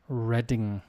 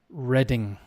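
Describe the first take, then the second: No difference in how they are said.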